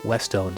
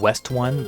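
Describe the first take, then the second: First: The name ends sounding like the word 'stone'. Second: The name ends sounding like the word 'one'. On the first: The speaker calls it right. "it's a portmanteau of West and Stone, so Westone seems logical" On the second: The speaker calls it wrong. "I've been calling them West One, but someone says the pronunciation is not correct"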